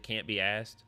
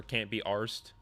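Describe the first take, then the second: First: "asked" said as ask-ed with a flat a; can't be "asked", plain American a; asked pronounced. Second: "arsed" with a long British ah and an r; can't be "arsed", open ah sound; arsed pronounced. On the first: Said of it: "Or can't be arsed?". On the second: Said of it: "Is it can't be asked?". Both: Shown as a demonstration.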